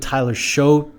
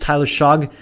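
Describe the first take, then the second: First: The surname ends with a vowel sound. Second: The surname ends with a g sound. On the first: "I've always pronounced his name Tyler Show, which I think is wrong" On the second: "I think it's Tyler Shog"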